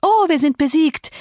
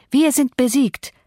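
First: Mock wail, pitched high on Oh; theatrical sarcastic cry of defeat; hammed-up high lament. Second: Slower, sinking mock echo; drawn-out sarcastic repeat; mock sinking lament. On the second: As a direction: let the sarcasm die away, falling. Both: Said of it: "rief Catherine".

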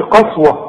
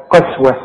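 First: قسوة with a full heavy a at the end; mock wrong قسوة; wrong heavy qaswa. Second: قسوة with light thin vowels; thin qaswa. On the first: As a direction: say قسوة with a thick open ending, the wrong way. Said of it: "ما تقولش قسوة". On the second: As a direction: correct recitation of قسوة. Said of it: "رقق برضه دي". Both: Shown as a demonstration.

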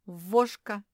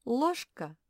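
First: Вошка said with v in place of l; вошка, with the l swapped for v; imitating the defect. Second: Said in the usual way. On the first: Shown as a demonstration. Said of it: "Вместо них произносит «в»". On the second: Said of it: "И получается".

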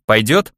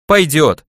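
First: Пойдёт asked with a rising tune; question rise on Пойдёт. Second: Пойдёт said with a firm falling tune; falling agreement. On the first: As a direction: ask Пойдёт? with the pitch going up at the end. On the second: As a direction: answer Пойдёт as a settled yes, pitch dropping. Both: Acted.

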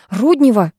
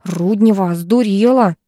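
First: Mild frightened yell of «Руднева»; understated scared shout; startled cry. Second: Mildly hissed reproach; angry hiss. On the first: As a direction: call out the name in alarm. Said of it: "перепугавшись, закричала Третьякова". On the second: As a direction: scold under restraint. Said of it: "потом зашипела". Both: A narrator's reading.

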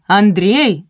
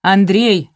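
First: Громче, протяжнее; позови ещё раз, дольше; повторный вопль. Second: Громче, падающий тон; позови громко через сад; вопль. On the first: (муж снова громко зовёт Андрея) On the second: (муж громко зовёт Андрея) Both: A narrator's reading. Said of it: "завопил баритон".

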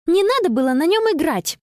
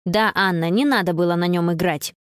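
First: High, reproachful cry. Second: Lower, needling echo. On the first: Girl scolding friend over the phone, indignant. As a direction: blame her, indignant. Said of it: "воскликнула Конни". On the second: Friend echoing to needle Anna, teasing. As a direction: rub it in, teasing. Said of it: "уколола Билли". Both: A narrator's reading.

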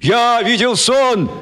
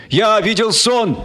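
First: Slow, high chant back; crowd answering. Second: Slow, high proclaiming cry; cried out. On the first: Crowd chanting the slogan back. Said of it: "отвечала ему толпа". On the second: Speaker crying his slogan to the crowd. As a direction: call it out to the crowd. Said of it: "крикнул Мартин Кеннинг". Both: Acted.

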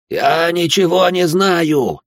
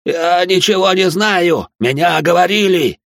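First: Протяжный крик высоко и громко, медленно; вытягивай каждое слово в крике; отчаянный крик. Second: Отчаянный протяжный крик, высоко и громко; кричи медленно, из последних сил; крик под пыткой. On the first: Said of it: "закричал тот". (пытаемый снова кричит монахам, отчаянно и громко) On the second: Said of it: "закричал иудей". (иудей на дыбе кричит инквизиторам, отчаянно и громко) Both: Acted.

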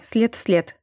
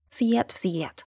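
First: Said in the usual way. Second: Much softer, mocking the words след в след behind his back; quiet mocking echo. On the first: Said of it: "сказал он Эльзе". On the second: A narrator's reading. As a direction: mimic his след в след under your breath, teasing. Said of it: "тихо повторила она ему в спину, кривляясь".

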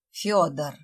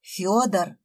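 First: Hissed. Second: Growled. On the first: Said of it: "прошипела Света". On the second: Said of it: "прорычала Света". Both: A narrator's reading.

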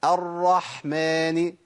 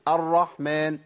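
First: Very slow, level «الرحمن» with a clear breathy ḥ; repeat-after-me ḥ. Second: Quicker «الرحمن» with the ḥ passed over lightly; careless ḥ. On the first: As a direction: draw out «الرحمن», ḥ fully voiced from the throat. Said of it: "جرب بقى كده وقول ورايا". («الرحمن» ببطء مع حاء واضحة) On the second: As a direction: slip past the ḥ in «الرحمن». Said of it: "ممكن تقول الرحمن". («الرحمن» بحاء متراخية) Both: Shown as a demonstration.

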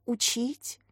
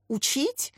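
First: Softer, unsure little question; lost for words, barely asking; taken aback. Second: Mock incredulous echo, a bit higher; surprised. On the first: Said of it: "Катя растерялась". (растерянно и тише) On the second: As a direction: scoff at the very idea. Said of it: "удивилась женщина". (удивлённо переспрашивая) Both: A narrator's reading.

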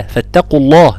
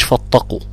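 First: فاتقوا الله with the تا kept thin; light تا. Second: فاتقوا with the تا thickened; wrongly heavy تا. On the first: Teacher models the right way for students, thin تا in فاتقوا. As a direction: keep فاتقوا light before the heavy قاف. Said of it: "مش، مش فاتقوا". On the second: Teacher shows what not to say, wrongly heavy تا in فاتقوا. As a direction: darken the تا in فاتقوا by mistake. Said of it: "مش، مش". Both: Shown as a demonstration.

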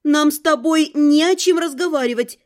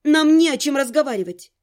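First: Firm reply with more confidence; emboldened, mildly forceful; bolder refusal. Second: Firm, strict reply, mildly raised; a touch of severity; stern refusal. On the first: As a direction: stand your ground through the door. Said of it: "повторила уже смелее". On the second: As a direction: refuse him sternly through the door. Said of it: "ответила строго". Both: A narrator's reading.

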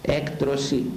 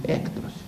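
First: Said in the usual way. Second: Hushed whisper of the word έκτρωση. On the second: Real, not acted. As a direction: breathe έκτρωση as a shocked whisper. (ψίθυρος, η λέξη έκτρωση σιγανά)

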